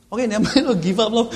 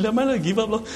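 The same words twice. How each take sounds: First: Laughing, loud slip of the tongue; wrong words. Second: Retold wrong words. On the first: Retold or imitated. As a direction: blurt the mix-up, laughing. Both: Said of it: "it came out the wrong way".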